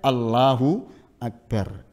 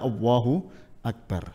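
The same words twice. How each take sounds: First: The l in Allah is a clear l. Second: The l in Allah sounds like a w. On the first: The speaker calls it right. "Lebih baik" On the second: The speaker calls it wrong.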